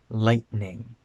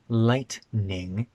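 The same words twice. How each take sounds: First: The middle sound is a glottal stop. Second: The middle sound is a full T. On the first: The speaker calls it right. "we say lightning" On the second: The speaker calls it wrong. "It's not lightning"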